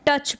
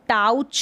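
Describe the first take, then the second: First: The vowel is said like a short 'uh'. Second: The vowel is said like 'ow'. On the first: The speaker calls it right. "टच पढ़ेंगे" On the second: The speaker calls it wrong. "अब इसको टाउच नहीं पढ़ेंगे"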